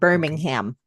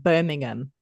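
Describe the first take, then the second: First: It is said with an American pronunciation. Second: It is said with a British pronunciation.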